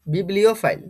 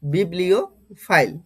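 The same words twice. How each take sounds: First: Said in the usual way. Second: বিবলিওফাইল slowly, with a pause before fail; বিবলিওফাইল drawn out in separate parts; pronunciation in parts. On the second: Shown as a demonstration. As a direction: say বিবলিওফাইল as biblio, then fail. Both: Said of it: "আমি এটার pronunciation কি করেছি".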